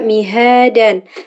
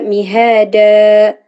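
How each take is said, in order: First: The word ends with a final -an sound. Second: The word ends on a long open vowel. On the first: The word is joined to what follows. "Ketika wasol dibaca mihadan" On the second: The reading stops on this word. "ketika wakof dibaca mihada"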